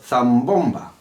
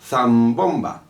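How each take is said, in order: First: A slight delay comes before the stressed syllable. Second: A slight delay comes before the stressed syllable.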